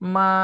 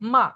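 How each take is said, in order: First: It is said with the first tone. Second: It is said with the fourth tone.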